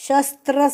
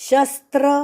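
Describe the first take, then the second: The two takes are said the same way.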